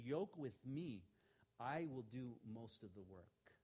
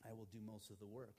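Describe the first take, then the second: First: Slow, with the stress on "I" in "I will do most of the work"; Jesus speaking slowly, stress on "I"; slow, stressed quote. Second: Quieter, with the stress on "work" in "I will do most of the work"; softer reread. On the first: Retold or imitated. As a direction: lean on "I", drawn out slowly. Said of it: "So Jesus is saying". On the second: Shown as a demonstration. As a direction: land softly on "work". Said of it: "Now, what does that mean?".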